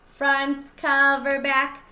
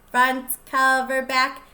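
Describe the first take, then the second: No difference in how they are said.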